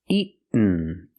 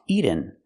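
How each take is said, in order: First: The middle t is stopped, not released. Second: The middle t sounds like a quick d. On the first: The speaker calls it right. "Or I can make a stop T" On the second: The speaker calls it wrong. "We cannot make a fast D here"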